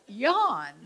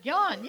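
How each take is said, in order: First: The word yawn said through a real yawn. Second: Said in the usual way. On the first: Shown as a demonstration. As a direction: stretch 'yawn' open like a yawn. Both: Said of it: "Well, just".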